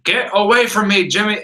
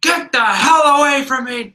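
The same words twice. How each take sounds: First: Higher, mildly annoyed mock snap; a first warning to a pest, imitated; irritated rebuff. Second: High, loud mock-furious yell; exploding in anger. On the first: Gene rebuffing meddling Jimmy. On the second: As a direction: imitate patience finally snapping. Gene finally blows up at Jimmy.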